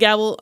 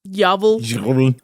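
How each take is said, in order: First: The name begins with a hard G sound. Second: The name begins with a Y sound. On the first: "I'm going to call it Gavel" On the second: "I know it's like Gavel or something like that"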